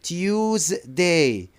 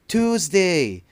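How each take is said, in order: First: The word is said in a British accent. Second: The word is said in an American accent. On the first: "for British, they pronounce it" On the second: "For Americans, they pronounce it"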